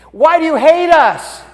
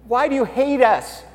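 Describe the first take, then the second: First: High, much louder anguished cry; desperate cry to God. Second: Higher, anguished question to God; pleading to God. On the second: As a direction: ask God why, hurt and begging. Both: Retold or imitated. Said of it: "Zechariah and Elizabeth were like".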